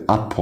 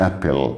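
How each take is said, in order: First: Apple said as "ap-pol"; dark rounded L ending. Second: Apple ending in "pel"; wrong light L ending. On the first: Teacher modelling apple for learners, rounded "pol" ending. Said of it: "بنضم ال ال اي". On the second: Teacher showing how apple is not said, "pel" ending. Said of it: "ما اسمهاش apple". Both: Shown as a demonstration.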